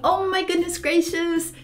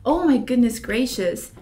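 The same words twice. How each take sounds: First: It is said in a happy, excited tone. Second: It is said in a serious, grave tone. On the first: The speaker is very happy about this. "eu tô muito feliz com isso" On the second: The speaker is serious about this. "eu tô mais sério, tô séria nisso"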